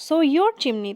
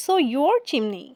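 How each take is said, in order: First: Said in the usual way. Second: "so your chimney" drawn out word by word, slowly; slow poem reading. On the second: Shown as a demonstration. Teacher reads the line slowly for the class, slow and deliberate. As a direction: read the verse slowly to the class. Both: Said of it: "এখানে কবিতার দৃষ্টিকোণটা দেখো".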